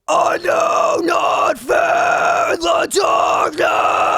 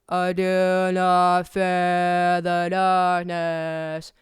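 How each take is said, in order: First: It is screamed with strong breath support. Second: It is spoken with a wide-open scream mouth shape.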